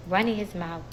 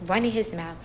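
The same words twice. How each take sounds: The two takes are said the same way.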